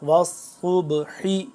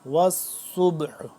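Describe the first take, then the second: First: The word ends with a short vowel. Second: The word ends on a consonant. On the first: The reading continues without stopping. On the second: The reader stops on this word.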